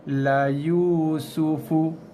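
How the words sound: The reading stops after Yusufu before continuing. The reader pauses to work out the next letters. "kita break dulu ataupun stop dulu kat situ"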